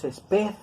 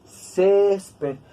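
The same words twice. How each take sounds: First: "esped" stressed on the final PED; wrong stress on last syllable. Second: "césped" with a long stressed CÉS, ped falling away; stress on first syllable. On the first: Teacher showing what we don't say, end-stressed "esped". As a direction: put the beat on PED in "esped". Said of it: "no decimos esped". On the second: Teacher showing how we say it, front-stressed "césped". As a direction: slowly hit CÉS in "césped". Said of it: "nosotros decimos césped". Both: Shown as a demonstration.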